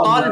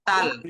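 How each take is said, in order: First: The t is heavy, said with rounded lips. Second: The t is light, said with relaxed lips. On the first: The speaker calls it right. "মুখটা সামান্য গোল করে যদি মোটা করে পড়তে পারেন" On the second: The speaker calls it wrong. "যদি এটা স্বাভাবিক বলেন তাল"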